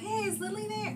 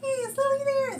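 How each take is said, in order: First: It is said in a normal speaking voice. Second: It is said in a high-pitched girlish voice.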